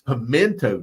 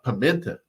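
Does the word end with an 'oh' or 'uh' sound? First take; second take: oh; uh. First: The word ends with an 'oh' vowel. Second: The word ends with an 'uh' vowel. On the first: The speaker calls it right. "it's pimento too" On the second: The speaker calls it wrong. "not pimenta"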